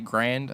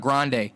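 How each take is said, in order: First: The name ends on the consonant, one syllable. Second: The name ends with an extra vowel syllable.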